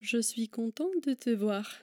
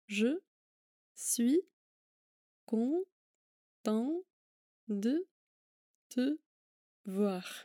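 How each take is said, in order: First: The sentence is spoken at normal speed. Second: The sentence is spoken slowly.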